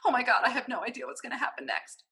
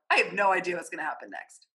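First: It sounds anxious and panicked. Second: It sounds excited and smiling.

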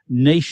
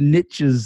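First: It is said the Australian way. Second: It is said the American way.

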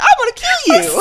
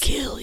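First: It is said in a happy, cheerful voice. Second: It is said in a creepy, menacing voice.

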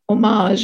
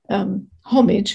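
First: The word is said with an American pronunciation. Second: The word is said with a non-American pronunciation. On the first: "as you Americans say" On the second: "as we say"

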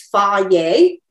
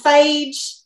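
First: It is said as two syllables, 'fa' then 'yeh'. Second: It is said as one syllable rhyming with 'age'. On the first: The speaker calls it right. "The actual pronunciation is fa-ye" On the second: The speaker calls it wrong. "stereotypical Texas way"

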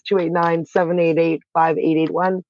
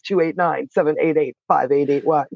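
First: It is said in her normal voice. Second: It is said in a radio announcer voice.

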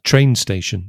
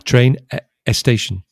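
First: No extra vowel sound comes before the 's' of 'station'. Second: An extra 'e' vowel sound comes before the 's' of 'station'. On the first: The speaker calls it right. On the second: The speaker calls it wrong.

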